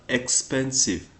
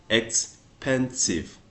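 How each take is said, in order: First: Said in the usual way. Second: "expensive" stretched slowly, ex-pen-sive; slowed for syllables. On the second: Shown as a demonstration. Teacher to English learners, slow syllable demo. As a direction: draw out "expensive" so each syllable is heard. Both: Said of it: "You hear the, the sound we make".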